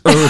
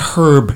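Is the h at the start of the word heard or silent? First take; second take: silent; heard. First: The word begins without any h sound. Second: The word begins with an audible h sound. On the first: The speaker calls it right. "You don't pronounce the H" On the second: The speaker calls it wrong. "It's not herb"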